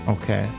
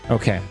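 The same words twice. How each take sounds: Both takes have the same delivery.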